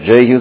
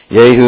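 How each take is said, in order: First: The name is given an English pronunciation. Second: The name is given a Hebrew pronunciation. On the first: "Maybe Jehu sounds better" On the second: "I know that's how you say it in Hebrew"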